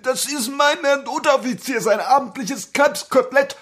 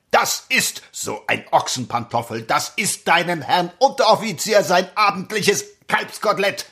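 First: Put-on high, eager young soldier; timid recruit. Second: Mocking barracks sergeant; drill sergeant. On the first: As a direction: recite it like a nervous recruit. Recruit repeats the answer. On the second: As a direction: lecture the recruit with scorn. Sergeant lectures recruit.

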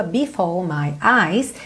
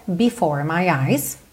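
First: Slow "before my eyes", no R in "before"; non-rhotic British R. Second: Slow, low "before my eyes" with an American R in "before"; rolled-tongue R. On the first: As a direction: leave the R of "before" silent, tongue uncurled. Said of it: "sem enrolar a língua". ("before" sem enrolar a língua) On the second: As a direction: curl the tongue on the R ending "before". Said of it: "Se você quiser". ("before" com o R enrolado) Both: Shown as a demonstration.

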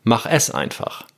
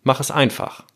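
First: Slow down and punch the middle word "es"; "es" set apart and accented, "einfach" falling after; stress on es. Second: Weight on the last word "einfach", falling at its end; stress on einfach. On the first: Podcaster showing the second reading of the title, "es" stressed. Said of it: "Also Betonung auf dem S". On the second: Podcaster showing the third reading of the title, "einfach" stressed. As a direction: run through "Mach es" into an accented "einfach". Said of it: "dritte Betonung ist auf dem Einfach". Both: Shown as a demonstration.

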